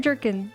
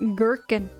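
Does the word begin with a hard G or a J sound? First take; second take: J; hard G. First: The word begins with a soft J sound. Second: The word begins with a hard G sound. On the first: "I always hear jerkin" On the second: "it starts with the hard G sound"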